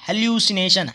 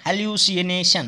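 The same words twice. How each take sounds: First: Said in the usual way. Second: "hallucination" stretched as hel-yoo-si-e-nay-shun; slowly sounded out. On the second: Shown as a demonstration. Teacher helping students spell it, "hallucination" slow and drawn out. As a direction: draw out "hallucination" part by part.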